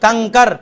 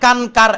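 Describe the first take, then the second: First: The nasal is a velar ng sound. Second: The nasal is a full, clear n sound. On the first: The speaker calls it right. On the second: The speaker calls it wrong.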